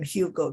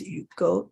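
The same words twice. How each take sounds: First: The name is said with English pronunciation. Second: The name is said with French pronunciation. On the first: "that's how you pronounce it in English" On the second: "a French person, so his name is Hugo"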